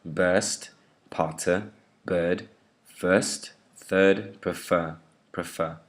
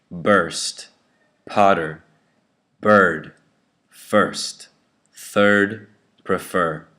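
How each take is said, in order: First: Word drill with r-less schwa in "Burst, potter, bird, first, third, prefer"; British schwa. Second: Word drill with a strong r in "Burst, potter, bird, first, third, prefer"; American bossy R. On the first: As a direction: drop every r after the vowel, "Burst" to "prefer", British style. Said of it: "schwa sound on the right, the British way". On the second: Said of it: "bossy R sound the American way". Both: Shown as a demonstration.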